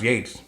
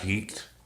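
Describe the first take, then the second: First: The vowel is said like in 'gates'. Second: The vowel is said like in 'beets'. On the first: The speaker calls it right. "Actually pronounced Yates" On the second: The speaker calls it wrong. "Looks like Yeats"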